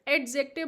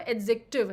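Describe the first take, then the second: First: A clear d sound is heard before the j. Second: No d sound is heard before the j. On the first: The speaker calls it wrong. "हमारा Indian pronunciation, जैसे कि मैं भी बोलती हूँ तो डा आ ही जाता है" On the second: The speaker calls it right. "यहाँ पे ड जो है वो साइलेंट है"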